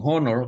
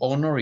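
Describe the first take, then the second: First: The word begins with an h sound. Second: The word begins with a vowel sound. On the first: The speaker calls it wrong. "Hindi naman natin sinasabing honor" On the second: The speaker calls it right. "kundi honor yan"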